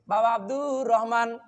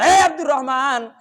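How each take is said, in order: First: The name is called softly and tenderly. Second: The name is called harshly and angrily.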